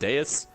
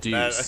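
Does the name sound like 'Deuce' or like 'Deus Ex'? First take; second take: Deus Ex; Deuce. First: It is said like the Deus in Deus Ex. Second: It is said like deuce, the word for two. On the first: The speaker calls it wrong. "I think that's how you pronounce it, Deus. Like Deus Ex" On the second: The speaker calls it right. "Deuce. Okay. So, like, number two"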